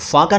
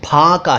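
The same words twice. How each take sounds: First: The word begins with an f sound. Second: The word begins with an aspirated p sound. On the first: The speaker calls it wrong. "फाका नहीं है ये" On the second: The speaker calls it right. "फाका है"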